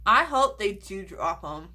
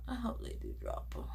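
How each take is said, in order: First: Said in the usual way. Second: Much softer, quicker repeat; quiet quick echo; softer, hushed. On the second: Real, not acted. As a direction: murmur it again under your breath.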